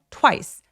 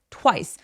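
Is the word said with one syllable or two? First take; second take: one; one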